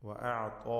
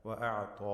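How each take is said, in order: The two takes are said the same way.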